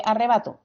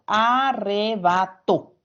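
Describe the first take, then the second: First: Said in the usual way. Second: Arrebato said slowly, syllable by syllable, TO stressed; a-rre-ba-TO dictated slowly. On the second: Shown as a demonstration. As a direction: drag out Arrebato for the class. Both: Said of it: "Se carga la voz en la última".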